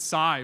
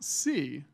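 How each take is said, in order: First: The vowel sounds like the word sigh. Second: The vowel sounds like the word see. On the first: The speaker calls it wrong. "how many people pronounced it Psy before I just said that?" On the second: The speaker calls it right. "it is pronounced C, even though it's spelled S I E"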